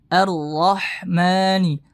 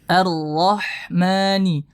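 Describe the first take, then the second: No difference in how they are said.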